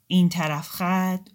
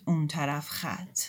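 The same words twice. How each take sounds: First: "این طرف خط" slow, leaning on "این"; stress on "این". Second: "اون طرف خط" slow, falling on "اون"; stress on "اون". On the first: Moghaddasi sets one side against the other, slow, stressing "این". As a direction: draw out "این" slowly and clearly. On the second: Moghaddasi names the other side, slow, falling on "اون". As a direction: let "اون" fall, slow and settled. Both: Shown as a demonstration. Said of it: "contrast of two sides".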